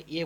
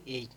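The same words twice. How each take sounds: First: "এ" as a single e, no glide; pure e. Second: "এই" as "ei", e sliding into i; English letter A, "ay"; gliding A. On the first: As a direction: stop "এ" before any i sound. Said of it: "আমরা এ বলে থাকি". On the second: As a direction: glide "এই" up to an i. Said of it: "কিন্তু ওর উচ্চারণ দেখুন এই". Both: Shown as a demonstration.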